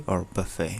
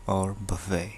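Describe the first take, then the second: The two takes are said the same way.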